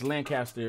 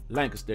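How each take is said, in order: First: It uses the pronunciation common outside Texas. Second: It uses the local Texas pronunciation. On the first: This is how it is said elsewhere. The speaker calls it wrong. "I know it's pronounced Lancaster in other places" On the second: This is how the locals say it. The speaker calls it right. "but here in Texas, it's pronounced Lancaster"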